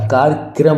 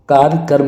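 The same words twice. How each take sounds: First: कार्यक्रम ending in a joined "kram"; k and r run together at the end of कार्यक्रम; correct pronunciation shown. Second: कार्यक्रम as "kaar-karam"; loud, split vowel in the last part of कार्यक्रम; wrong pronunciation shown. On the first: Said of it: "कार्यक्रम होता है". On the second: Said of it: "कार्यक्रम नहीं होता". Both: Shown as a demonstration.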